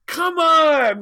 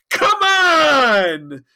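First: High, loud falling shout; exasperated shout. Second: High, loud shouted protest; exasperated shout. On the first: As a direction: bellow it a second time, fed up. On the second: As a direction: yell it in disbelief, arms wide. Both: Acted. Tom protesting to Janeway.

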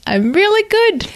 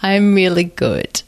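First: Much higher, playful lilt; high sing-song. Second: Said in the usual way. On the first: Shown as a demonstration.

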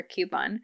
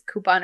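First: "coupon" said KYOO-pon; y glide after the k in "coupon": KYOO-pon; KYOO-pon pronunciation. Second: "coupon" said KOO-pon; no y glide in "coupon": KOO-pon; KOO-pon pronunciation. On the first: Offering listeners the second poll choice, "coupon" as KYOO-pon. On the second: Offering listeners the first poll choice, "coupon" as KOO-pon. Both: Shown as a demonstration. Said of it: "if it's coupon or coupon".

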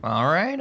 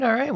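First: Said in the usual way. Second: "all right" jumps up high with a bright rise; high upbeat repeat. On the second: Real, not acted. Host wraps up, moves on.

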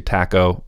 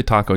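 First: "taco" with a flattened a, as in "cat"; mispronounced Spanish. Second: "taco" with an open ah, "tah-ko"; correct Spanish pronunciation. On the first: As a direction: say "taco" as TACK-oh. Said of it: "it's kinda stupid sounding". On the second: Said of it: "You're supposed to say taco". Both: Shown as a demonstration.

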